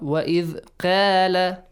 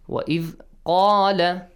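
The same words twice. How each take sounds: First: The first sound of qala is light and thin. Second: The first sound of qala is heavy and deep. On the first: The speaker calls it wrong. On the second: The speaker calls it right.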